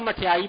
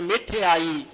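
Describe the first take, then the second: First: The first syllable has an 'a' vowel. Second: The first syllable has an 'i' vowel. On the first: This is the everyday spoken form. The speaker calls it wrong. "ਉਂਝ ਆਪਾਂ ਮਠਿਆਈ ਬੋਲਦੇ ਨਾ ਆਮ" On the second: This is the form used in the scripture. The speaker calls it right. "ਧਿਆਨ ਰੱਖਣਾ ਉਚਾਰਨ ਕਰਨ ਵੇਲੇ ਮਿਠਿਆਈ"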